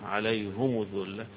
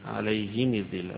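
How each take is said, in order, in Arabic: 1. الحركتان الرابطتان كلتاهما ضمة. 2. الحركتان الرابطتان كلتاهما كسرة. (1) "يضم ضمتين فيها" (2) "يقرأها أبو عمرو بالكسر"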